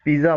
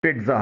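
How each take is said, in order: First: पिज़्ज़ा said as "pee-za"; everyday पिज़्ज़ा, "piza"; local pronunciation. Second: पिज़्ज़ा said as "PEET-za"; English-style पिज़्ज़ा, "pit-za"; correct English pronunciation. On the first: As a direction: say पिज़्ज़ा with a plain z, no t. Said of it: "हमारे यहाँ इसे". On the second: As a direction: say पिज़्ज़ा with a light t before z. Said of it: "टी की आवाज़ निकाली जाती है।". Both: Shown as a demonstration.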